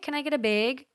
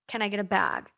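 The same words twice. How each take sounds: First: Bag has a Minnesota-style vowel. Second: Bag has a California-style vowel. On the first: "It's a Minnesota thing" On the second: "I changed my speech, and now I say bag"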